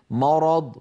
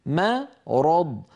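First: مرض with the mim made heavy, following the ر; the mistaken reading, with the mim of مرض darkened; wrong heavy mim. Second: Very drawn-out مرض with a thin mim and a heavy ر and ض; correct thin mim. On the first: Teacher showing students the mistake: heavy mim. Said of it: "فلا يصح أن يقول القائل". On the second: Teacher slowly modelling for students the right form. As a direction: stretch مرض: light mim, full heavy ر and ض. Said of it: "الميم مرققة والراء والضاد مفخمتان". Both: Shown as a demonstration.

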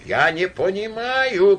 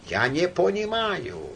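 First: Higher, louder, slow helpless moan; louder groan. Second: A touch of a moan, drawn out slowly; mild groan. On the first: Count despairing over the quarrel, louder slow groan. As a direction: let the groan swell in despair. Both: A narrator's reading. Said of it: "простонал граф".

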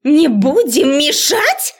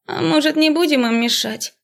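First: High, slow, loud outraged bark; furious bark. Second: High, listless suggestion; melancholy drawl. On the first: Professor shouting down the student, enraged. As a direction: throw it back enraged. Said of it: "гаркнула разозлённая до предела". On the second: Another student suggesting leaving them, listless. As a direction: shrug it off dreamily. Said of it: "меланхоличный голос". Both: A narrator's reading.

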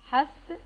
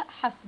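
First: حسب said hasab, with a vowel on the سين; the common mistake, حسب as hasab; wrong pronunciation. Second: حسب said hasb, with the سين unvowelled; the right way, حسب as hasb, no vowel after سين; correct sukun. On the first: Teacher showing the learners' error, careful mispronunciation. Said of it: "يخطئ البعض وينطقها حسب". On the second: Teacher giving the correct form, careful pronunciation. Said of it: "بتسكين السين". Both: Shown as a demonstration.

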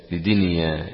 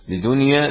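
First: لدنيا with an "i" after the dal, "li-dinya"; kasra on dal. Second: لدنيا with a "u" after the dal, "li-dunya"; damma on dal. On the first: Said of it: "بكسرها". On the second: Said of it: "بضم الدال". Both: Shown as a demonstration.

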